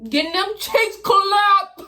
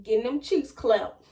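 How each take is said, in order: First: "Getting them cheeks clapped" slow, loud and high; emphatic repeat. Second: Said in the usual way. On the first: Shown as a demonstration. Teen repeating her inner thought to viewers, slow and loud. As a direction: punch every word of "clapped" line, slowly.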